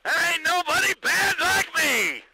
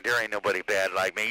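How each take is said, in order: First: Much higher and louder boastful shout; shouted high boast over the radio; loud brag. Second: Said in the usual way. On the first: Real, not acted. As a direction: belt it out as a proud brag. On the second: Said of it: "That's right".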